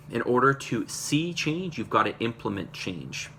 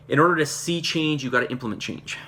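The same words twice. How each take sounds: First: "In order to see change" drawn out slowly; slow emphatic repeat. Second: Said in the usual way. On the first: Real, not acted. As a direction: repeat the motto deliberately, word by word.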